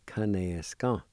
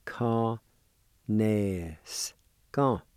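First: Kanaska said as one connected word; joined-up pronunciation. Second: Ka-nes, ka with long held syllables and gaps; syllable-by-syllable pronunciation. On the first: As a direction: run Kanaska together without gaps. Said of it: "First one again". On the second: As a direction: sound out ka-nes, ka slowly, piece by piece. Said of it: "is pronounced like this". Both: Shown as a demonstration.

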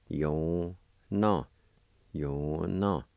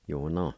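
First: Yo no drawn out as separate syllables; syllable-by-syllable demo. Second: Said in the usual way. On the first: Shown as a demonstration. Teacher showing the word for grizzly bear, Yo no in syllables. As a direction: stretch each half of Yo no. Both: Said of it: "It's pronounced like this".

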